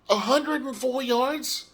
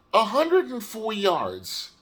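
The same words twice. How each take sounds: First: High, slow disbelieving question on hundred; can't believe the number, slowly rising; incredulous question. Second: Slow flat confirmation with stress on hundred; deadpan repeat. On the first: Reading his stats in disbelief. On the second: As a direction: let the disappointment settle, slowly. Repeating the stat flatly. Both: Real, not acted.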